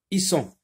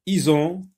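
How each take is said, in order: First: Isson with a hissed s in the middle; S sound. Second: Ison with a voiced z in the middle; Z sound. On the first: Teacher rereading the list, Isson with an S sound. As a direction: keep the s sharp in Isson. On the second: Teacher rereading the list, Ison with a Z sound. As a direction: buzz the z in Ison. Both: Shown as a demonstration. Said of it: "Entoure quand S se prononce Z".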